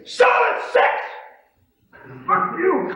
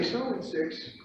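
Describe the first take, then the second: First: Very high, loud combative yell; confrontational. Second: Said in the usual way. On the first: Retold or imitated. Pit trader offering as a challenge, confrontational. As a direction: imitate an in-your-face pit trader. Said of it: "He offers it in a confrontational manner". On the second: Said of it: "doesn't say".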